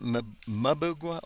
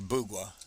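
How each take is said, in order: First: The name begins with a clear M sound. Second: The name begins without any M sound. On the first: The speaker calls it wrong. "I've been mispronouncing" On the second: The speaker calls it right. "don't even act like the M's there"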